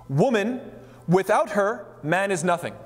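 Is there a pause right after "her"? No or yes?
yes. There is a pause after "her".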